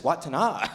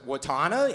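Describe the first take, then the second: First: Watana as WUT-ta-nah; correct name pronunciation. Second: Watana as wuh-TAH-nuh, rising; mispronounced name. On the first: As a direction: say Watana with short WUT and open final NAH. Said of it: "No, it's just Watana". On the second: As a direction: question Watana with a long middle TAH. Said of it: "you just let me mispronounce my name". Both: Retold or imitated.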